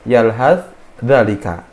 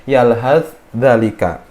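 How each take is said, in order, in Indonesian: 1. Bunyi 'th' dilafalkan terpisah sebelum 'dh'. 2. Bunyi 'th' dilafalkan terpisah sebelum 'dh'.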